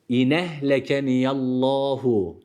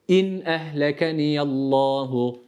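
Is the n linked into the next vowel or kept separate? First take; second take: linked; separate. First: The n runs straight into the next vowel. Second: The n is closed before the next vowel. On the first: The speaker calls it wrong. "Şöyle değil. Doğru okuyuş olmaz" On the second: The speaker calls it right. "İzhar var"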